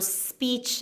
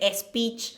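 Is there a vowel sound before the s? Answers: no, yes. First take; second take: no; yes. First: The word starts directly with the s sound. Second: An e vowel is added before the s. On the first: "instead of S, you know, speech" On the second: "and we say speech"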